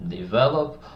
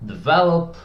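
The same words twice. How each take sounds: First: Said in the usual way. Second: "develop" said higher and louder, punched; emphasized word. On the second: Shown as a demonstration. Coach offers a simpler word, higher and louder. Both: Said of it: "or we can say".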